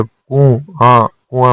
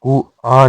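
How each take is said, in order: First: कुआ slow and nasalised; correct form. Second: कुआ without nasal; incorrect form. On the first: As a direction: send कुआ through the nose as "kun-aan". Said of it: "चंद्रबिंदु के साथ". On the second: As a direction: say कुआ as oral "ku-aa". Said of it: "नहीं होता". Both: Shown as a demonstration.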